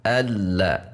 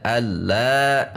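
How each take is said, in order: First: "alla" with a short, unstressed la; lurus saja. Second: "alla" with la leaned on and lengthened; la ditekan, salah. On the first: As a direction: keep "alla" straight, no swell on la. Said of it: "tekanan suara kita lurus saja". ("alla" lurus dengan la satu harokat) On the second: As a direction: overdo the final la of "alla", drawing it out. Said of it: "tidak alla". ("alla" dengan la ditekan dan dipanjangkan) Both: Shown as a demonstration.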